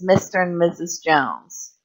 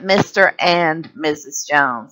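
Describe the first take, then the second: First: The word 'and' shrinks to a quick 'n'. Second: The word 'and' is said in full, plainly. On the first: The speaker calls it right. "the A and the D sort of become silent" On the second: The speaker calls it wrong. "it's not a plain and? It's not"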